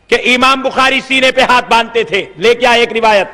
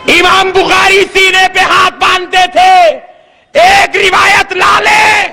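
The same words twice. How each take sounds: First: Said in the usual way. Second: High, ringing preacher's dare; shouted challenge. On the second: Real, not acted. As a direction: declaim it slowly as a public challenge. (للکارتے ہوئے بلند خطیبانہ آواز)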